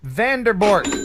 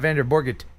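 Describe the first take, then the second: First: The name ends in a single syllable, 'bort'. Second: The name ends in two syllables, 'borget'. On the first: The speaker calls it right. "I think that's a solid pronunciation of Vanderbort" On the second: The speaker calls it wrong. "It's not Vanderborget. It can't be that"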